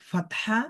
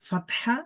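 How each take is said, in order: Both takes have the same delivery.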